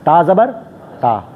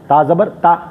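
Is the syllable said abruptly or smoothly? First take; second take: smoothly; abruptly. First: The syllable is released softly and gently. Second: The syllable is cut off with a sharp jolt. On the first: The speaker calls it right. "नरमी से" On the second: The speaker calls it wrong. "झटके जे साथ"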